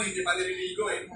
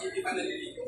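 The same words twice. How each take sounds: First: Said in the usual way. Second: Breathy whisper, no voice at all; whispered aside. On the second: Real, not acted. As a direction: drop to a secret whisper for the joke. Teasing aside about unwashed parents.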